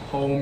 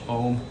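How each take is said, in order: First: The initial H sound is pronounced. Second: The initial H sound is dropped.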